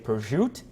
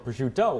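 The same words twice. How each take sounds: First: It is said the Italian-American way. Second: It is said the standard Italian way. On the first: "as my Italian-American grandmother did" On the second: "which is what you're saying"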